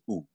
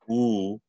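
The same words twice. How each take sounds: First: The vowel is cut very short. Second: The vowel is held about twice as long. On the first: "the shorter one" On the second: "double length, which is when you have the um, kahako above it"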